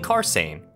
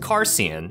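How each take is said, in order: First: The name ends with a sound like 'Sane'. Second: The name ends with a sound like 'Cian'. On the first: The speaker calls it right. "the correct pronunciation was actually Carsain, which makes his name Sane" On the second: The speaker calls it wrong. "that would make his name Cian"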